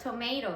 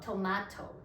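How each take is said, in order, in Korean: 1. 미국식 발음이에요. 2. 영국식 발음이에요. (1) "that's not correct" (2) "영국식 발음은 토마토래요"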